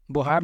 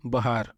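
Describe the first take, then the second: First: बुहार with a rounded o/u in the first syllable; बुहार, first vowel rounded; wrong vowel demo. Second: बहार with a short unrounded 'ba' first; बहार, short a then long aa; correct vowel demo. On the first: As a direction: say बुहार with 'bo' before the long 'haar'. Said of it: "बुहार नहीं कहेंगे". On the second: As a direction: say बहार as 'buh-HAAR', no o/u sound. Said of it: "आप लोग कहेंगे बहार". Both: Shown as a demonstration.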